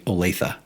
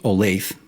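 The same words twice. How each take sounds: First: It uses the pronunciation locals use. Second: It uses the pronunciation outsiders use. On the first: "locals say" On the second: "People not from here say"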